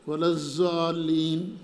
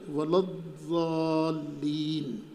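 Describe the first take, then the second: First: The letter is pronounced as a z sound. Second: The letter is pronounced as a d-like sound. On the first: The speaker calls it wrong. "ज़ा पढ़ते हैं, ये तहरीफ है ना भाई" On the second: The speaker calls it right. "न दाल पढ़ना है न ज़ा पढ़ना है, बल्कि क्या पढ़ना है"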